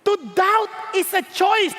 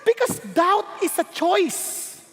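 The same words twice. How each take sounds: First: Choice leaned on, slow; slow repeat stressing choice. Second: Slow, deliberate phrasing; slow preacher emphasis; slow emphatic. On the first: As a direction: land hard on choice. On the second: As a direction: lay each word down slowly. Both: Shown as a demonstration. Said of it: "Let me repeat".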